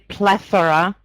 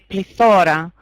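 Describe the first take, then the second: First: The word carries its English stress pattern. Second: The word carries its Greek stress pattern. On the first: The speaker calls it wrong. "We don't say plethora" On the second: The speaker calls it right. "in Greek we say plethora"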